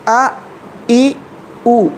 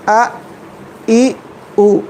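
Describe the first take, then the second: First: The vowels are sounded as pure a, i, u. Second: The vowels are sounded as pure a, i, u.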